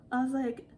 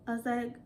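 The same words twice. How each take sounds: The two takes are said the same way.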